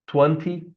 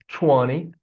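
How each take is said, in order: First: The middle T is pronounced as a clear T. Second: The middle T is softened, not a clear T. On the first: This is a general, non-American form. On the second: This is the American standard form.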